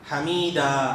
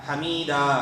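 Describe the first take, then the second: No difference in how they are said.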